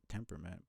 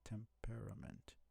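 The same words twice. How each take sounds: First: The middle vowel is dropped, three syllables. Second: The middle vowel is pronounced, four syllables. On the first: "I swear you pronounce it temperament" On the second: "there's an A there"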